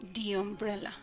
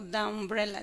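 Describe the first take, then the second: First: The word 'the' is said like 'thee'. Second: The word 'the' is said like 'thuh'. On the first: The speaker calls it right. "digo the umbrella, para hacer la diferencia" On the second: The speaker calls it wrong. "No digo the umbrella"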